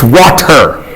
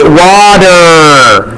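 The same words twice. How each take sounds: First: The middle consonant is a clear T sound. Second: The middle consonant is a soft D-like flap. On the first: "That's a T. It's water" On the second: "But we don't say it. We water"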